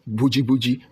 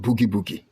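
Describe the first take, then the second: First: The word sounds like 'boh-jee'. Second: The word sounds like 'boo-gee'. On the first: This is the local way of saying the name. "This is how we pronounce it" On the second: This is the original English form of the name. "it's originally Boogie Boogie"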